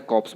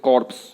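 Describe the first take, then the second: First: कॉप्स with no r, "kops"; कॉप्स with the p sounded, r silent; taught pronunciation. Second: कॉर्प्स with the r sounded; कॉर्प्स read as spelt; wrong pronunciation. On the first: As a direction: say कॉप्स, dropping the r. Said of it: "कॉप्स बोलते हैं इसको". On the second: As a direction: say कॉर्प्स, r and p both heard. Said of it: "लेकिन गलत तरीका है". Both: Shown as a demonstration.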